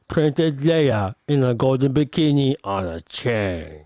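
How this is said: It is said in a gross, lecherous tone.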